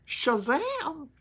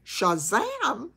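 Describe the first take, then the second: First: Higher, drawn-out Southern "Shazam!" falling; Gomer Pyle catchphrase. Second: A second goofy Gomer Pyle shout; Gomer Pyle catchphrase. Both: Retold or imitated. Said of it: "Gomer Pyle".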